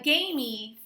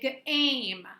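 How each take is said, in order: First: The final E is sounded as an extra syllable. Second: The final E is silent, one syllable. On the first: The speaker calls it wrong. "you don't say that you're going to have a" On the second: The speaker calls it right. "You're going to say game"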